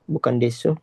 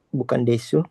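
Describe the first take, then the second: The two takes are said the same way.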